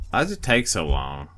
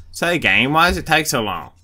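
First: Said in the usual way. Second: Louder, exasperated complaint. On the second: Real, not acted. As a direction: call out at the game, fed up. Impatient at slow loading screen.

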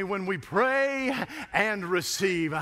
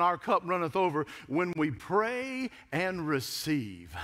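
First: Drawn-out "when we pray and receive"; slow emphasis. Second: Slow, weighty "cup runneth over"; preaching emphasis. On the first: Preacher stressing the point to the congregation, slow. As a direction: lean hard on "pray", slowly. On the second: Preacher repeating the line for emphasis, slow. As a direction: draw out "pray and receive" with weight. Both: Acted. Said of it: "I said, honey".

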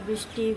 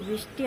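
Both takes have the same delivery.

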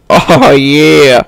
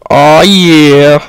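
No difference in how they are said.

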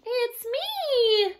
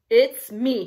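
First: Tiny high-pitched squeal; squealing baby goat. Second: Loud, firm grunt, unsqueaky; grunting big goat. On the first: Baby goat answers the troll, squealing. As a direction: squeal it like a frightened little kid goat. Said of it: "Baby Gruff squealed". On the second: Big goat answers troll, grunting. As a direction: grunt it out boldly. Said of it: "he grunted". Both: A narrator's reading.

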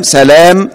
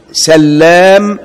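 First: سلام with a single light L, selam; سلام, no doubling on the L. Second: سلام drawn out slowly with a doubled L, sallam; a slow, deliberate سلام leaning on the double L. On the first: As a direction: say سلام with the L short and unstressed. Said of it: "بتخفيف اللام". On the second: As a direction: stretch سلام and hold its L long. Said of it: "بتشديد اللام". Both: Shown as a demonstration.

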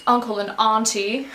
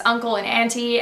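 First: "auntie" said as AHN-tee; broad-A auntie. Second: Said in the usual way. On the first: Shown as a demonstration. Vlogger trying the other pronunciation on herself, "auntie" as AHN-tee.

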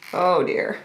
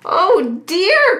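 First: Low, understated duck grumble; mildly put-out storybook grumble; grumbling. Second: High, dismayed duck exclamation; storybook duck, pitched well up; quacking duck. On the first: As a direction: grumble it under your breath, lower. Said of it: "Sally grumbled". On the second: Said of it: "quacked Sally". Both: A narrator's reading.

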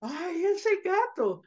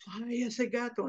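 First: Very high, small-voiced lament; tiny squeaky echo of a shaken sigh; little girl. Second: Softer echo of a shaken sigh; mildly shaken little boy; boy copying dad. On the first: Little girl next to her brother, shaken. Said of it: "the little girl sits next to him". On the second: Acted. Boy on the couch copying his dad, mildly shaken. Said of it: "like his dad".

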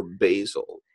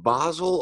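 First: Basil as BAY-zil; American-style basil, first syllable like "bay"; second pronunciation of basil. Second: Basil with an open "ah", BAH-zil; first pronunciation of basil. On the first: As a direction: say "basil" with a long A. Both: Shown as a demonstration. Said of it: "Is it basil or basil?".

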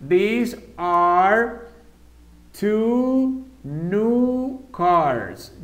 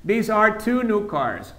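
First: Very slow, drawn-out model answer. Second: Said in the usual way. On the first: Shown as a demonstration. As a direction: stretch every word for the learners. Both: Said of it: "this, ¿con cuál va?".

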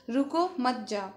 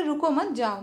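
First: "रुको" set apart, then "मत जाओ" as one phrase; pause after रुको. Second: "रुको मत" as one unit, then "जाओ" apart; pause after मत. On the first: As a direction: stop them: "रुको", break, "मत जाओ". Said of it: "मतलब वो उसको रोक रही है". ("रुको" पर ठहरकर "मत जाओ") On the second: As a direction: send them off: "रुको मत", break, "जाओ". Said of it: "यहाँ पर बिल्कुल मत रुको और यहाँ से जाओ". ("रुको मत" कहकर विराम, फिर "जाओ") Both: Shown as a demonstration.

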